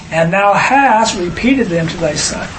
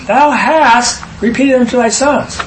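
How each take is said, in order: First: Said in the usual way. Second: "Thou" lifted higher and pushed out at the start of the line; stress on Thou. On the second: Shown as a demonstration. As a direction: hit "Thou" hard, then read the rest through. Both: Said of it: "Wait a minute".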